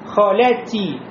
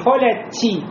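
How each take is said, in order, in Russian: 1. Т произносится чисто, без шипения. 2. Т произносится с шипящим трением. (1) "ти произнес без шипения" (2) "не холя ти"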